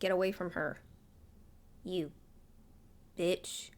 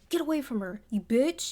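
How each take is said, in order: First: It is said more quietly, without much force. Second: It is said loudly and forcefully, from the chest. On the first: The speaker calls it wrong. "instead of" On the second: The speaker calls it right. "I kind of wish he said it with his chest"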